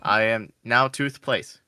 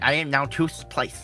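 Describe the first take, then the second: First: It is said in a normal voice. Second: It is said with a put-on side lisp.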